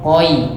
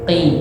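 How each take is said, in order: First: The syllable is drawn out slowly, gliding. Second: The syllable is said short and quick. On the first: "seandainya di slow motion suaranya" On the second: "Tapi cepet"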